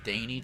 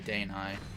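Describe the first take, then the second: First: The name ends with a 'nay' sound. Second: The name ends like 'night'. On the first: This is the old way of saying the name. The speaker calls it wrong. "changed my pronunciation from Daney" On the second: The name comes from a day-night cycle. The speaker calls it right. "to Danai. Because it is Danai, because it's a day-night cycle"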